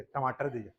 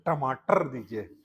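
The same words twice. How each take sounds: First: टमाटर said quickly and loosely, the tongue not fully curled; quick casual way. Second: टमाटर slow, each ट fully retroflex with the tongue curled back; exact pronunciation. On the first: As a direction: rattle off टमाटर दीजिए the lazy everyday way. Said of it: "सुविधा के लिए ऐसे बोल देते हैं जल्दी से". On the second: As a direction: say टमाटर दीजिए slowly with full tongue contact on ट. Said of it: "एकदम exactly अगर बोले तो ऐसे बोला जाए". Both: Shown as a demonstration.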